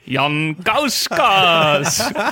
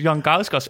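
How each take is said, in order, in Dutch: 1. De naam wordt luid en opgewonden uitgeroepen. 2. De naam wordt rustig en gewoon uitgesproken.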